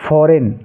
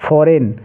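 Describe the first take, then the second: No difference in how they are said.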